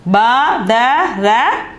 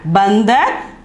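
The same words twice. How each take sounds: First: "Ba, da, ra" as three separate, loud syllables; letter by letter. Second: "bandar" as one word, n before the d; joined-up pronunciation. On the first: Teacher reads the letters of monkey, syllables loud and apart. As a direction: sound out "Ba, da, ra" one at a time. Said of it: "But the pronunciation is bandar". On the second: Teacher gives the whole word for monkey, "bandar" run together. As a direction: blend it into "bandar". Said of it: "the pronunciation is bandar". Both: Shown as a demonstration.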